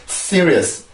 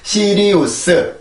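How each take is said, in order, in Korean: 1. 이 단어는 음절 세 개로 발음됩니다. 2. 이 단어는 음절 네 개로 발음됩니다. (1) "영어는 serious, serious, serious 이렇게 삼음절이에요" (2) "우리나라는 시리우스 사음절이지만"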